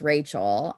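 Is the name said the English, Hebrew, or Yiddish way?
English. The name is said with an English pronunciation. "And I would just say it's Rachel"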